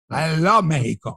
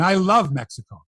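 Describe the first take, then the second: First: MEXICO said Spanish-style, as MEH-hee-ko; "Mexico" in a Spanish accent; Spanish pronunciation. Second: Said in the usual way. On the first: Shown as a demonstration. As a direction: say "Mexico" with an h sound in place of the x. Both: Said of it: "When I say Mexico".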